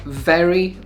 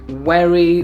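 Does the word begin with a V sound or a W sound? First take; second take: V sound; W sound. First: It begins with a buzzing V sound. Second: It begins with a rounded W-like sound. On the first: "Words like very" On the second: "sound like werry"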